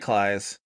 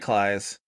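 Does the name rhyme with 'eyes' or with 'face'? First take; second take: eyes; eyes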